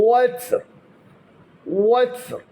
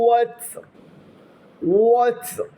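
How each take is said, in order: No difference in how they are said.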